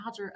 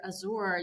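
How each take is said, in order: First: Azure with stress up front, AZH-er; Azure as AD-zher. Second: Azure with stress on the end, a-ZOR; Azure as a-ZOOR. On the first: Guest recalls wondering which is right, Azure as AZH-er. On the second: Guest recalls wondering which is right, Azure as a-ZOOR. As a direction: say Azure with a long second syllable. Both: Shown as a demonstration. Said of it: "you know, what is right?".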